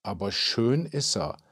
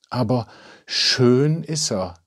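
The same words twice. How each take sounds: First: Soft, dreamy aside; quietly wistful remark; wistful musing. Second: A touch of swooning; sighing admiration. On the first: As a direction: muse softly, lost in thought. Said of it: "Jorinde pulte versonnen". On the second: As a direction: sigh it out with mild longing. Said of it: "wiederholte Jorinde und seufzte". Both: A narrator's reading.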